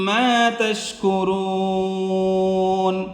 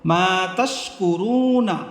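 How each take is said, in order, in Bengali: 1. শব্দটি 'n' দিয়ে শেষ হয়, শেষে কোনো স্বরধ্বনি নেই। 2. শব্দটি শেষে 'a' স্বরধ্বনি দিয়ে শেষ হয়।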